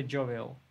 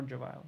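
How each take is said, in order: First: JOVIAL said as JOH-vee-ul; "jovial" as JOH-vee-ul, matter-of-fact; likely pronunciation. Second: JOVIAL said as joh-VY-ul; "jovial" as joh-VY-ul, matter-of-fact; alternative pronunciation. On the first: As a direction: say "jovial" with an ee in the middle. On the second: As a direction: say "jovial" with an eye sound in the middle. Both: Shown as a demonstration. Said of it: "How should we pronounce it?".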